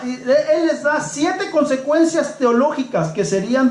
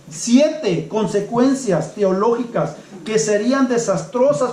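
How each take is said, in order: First: Said in the usual way. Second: Slower, leaning on siete; slow emphatic repeat. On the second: Shown as a demonstration. Preacher repeating the point to the congregation, slow and weighty. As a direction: repeat it slowly so each word lands, stressing siete.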